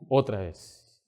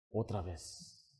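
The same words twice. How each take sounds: First: Said in the usual way. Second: Very soft, low and very slow; hushed awe. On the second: Acted. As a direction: breathe it out in wonder. Soul-winner after God works.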